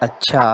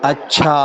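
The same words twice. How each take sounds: First: The word is said short and quick. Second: The word is drawn out and long. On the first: The person is fine and worthy. "ಅಚ್ಚಾ ಅಂತಂದ್ರ ಪರವಾಗಿಲ್ಲ" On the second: The person is unworthy; it is over. "ಅಚ್ಚಾ ಅಂತ ಜರ ದೀರ್ಘವಾಗಿ ಹೇಳಿದ್ರ"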